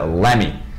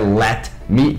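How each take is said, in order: First: The t drops and the words merge together. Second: Let and me are said separately, t clear. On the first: The speaker calls it right. "vira let me, igual gimme" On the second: The speaker calls it wrong. "não é let me"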